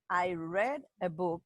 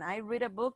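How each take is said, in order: First: Read has a short e vowel, like bed. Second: Read has a long ee vowel, like need. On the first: The action happened in the past. "in the past" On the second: The action happens now or habitually. "in the present"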